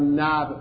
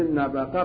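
First: No vowel is heard between the b and q. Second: A vowel is heard between the b and q. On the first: "گاهی از ساکنش میدن" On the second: "به فتح نو و کسر با"

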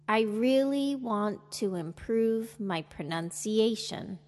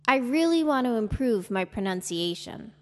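First: The sentence is spoken slowly. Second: The sentence is spoken at normal speed. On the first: "Listen and repeat slowly" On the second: "listen and repeat at a normal speed"

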